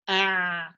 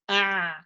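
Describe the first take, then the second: Both takes have the same delivery.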